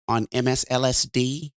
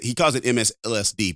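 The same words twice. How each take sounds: First: Lightly imitated talk-radio host, calm and measured; a hint of a radio host savoring the nickname on M S L S D; light, calm radio-host take on the nickname; Mark Levin's calm voice. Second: Said in the usual way. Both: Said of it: "but he says it like this".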